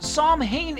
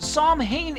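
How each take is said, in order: First: The name is sounded out as it is spelled. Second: The name is sounded out as it is spelled.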